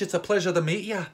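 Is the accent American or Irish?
Irish. It is spoken in a put-on Irish accent. "I have a fake Irish accent"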